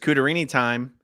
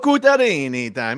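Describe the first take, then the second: First: It is said in the speaker's ordinary accent. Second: It is said in a put-on Italian accent. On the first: "I like it when you say it that way" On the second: "we also like it in the Italian version"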